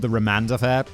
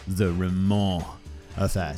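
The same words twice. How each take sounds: First: The name ends with a sounded D. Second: The name ends without any D sound. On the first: The speaker calls it wrong. "this is called" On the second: The speaker calls it right. "it's actually pronounced"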